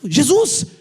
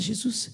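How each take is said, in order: First: It is said firmly, with authority. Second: It is said weakly and timidly.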